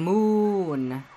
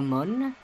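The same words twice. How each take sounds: First: The vowel is the English 'oo' sound of moon. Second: The vowel is a 'u' sound, as if spelled Mun. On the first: The speaker calls it wrong. "not like a moon" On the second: The speaker calls it right. "more like a moon"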